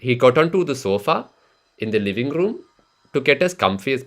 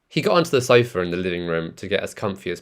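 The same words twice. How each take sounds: First: It is spoken in an Indian accent. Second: It is spoken in a British accent. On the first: "In the Indian accent, it'd be" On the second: "let me read this out for you in the British accent"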